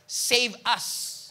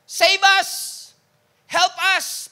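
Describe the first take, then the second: First: Said in the usual way. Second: Shouted high and loud, pleading; desperate crowd cry. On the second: Retold or imitated. Preacher voicing the desperate crowd, a loud pleading shout. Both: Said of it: "should be translated as".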